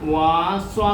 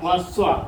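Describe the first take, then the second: First: The first vowel is drawn out long. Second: The first vowel is kept short. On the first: The speaker calls it wrong. "വാസ്വ എന്നും പറയത്തില്ല" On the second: The speaker calls it right. "ഇത് നീട്ടാൻ ഉപയോഗിക്കുന്നതല്ല"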